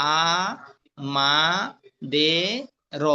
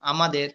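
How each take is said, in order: First: "আ … মা … দে … র", long pauses between syllables. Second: Said in the usual way. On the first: Shown as a demonstration. Teacher spelling out a Bangla word, "আ … মা … দে … র" separately. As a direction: sound out "আ", "মা", "দে", "র" one by one. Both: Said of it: "উচ্চারণ দেখে দেখবো".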